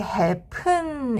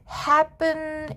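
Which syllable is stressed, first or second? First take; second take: second; first. First: The stress is on the second syllable. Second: The stress is on the first syllable. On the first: The speaker calls it wrong. "이렇게 뒤에 강세를 넣지는 않아요" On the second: The speaker calls it right. "이렇게 앞에 강세를 넣지"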